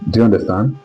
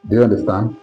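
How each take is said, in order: Both takes have the same delivery.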